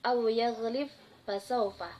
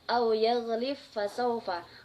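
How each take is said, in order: First: The final consonant is pronounced separately. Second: The final consonant merges into the next sound. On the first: "yang berbunyi"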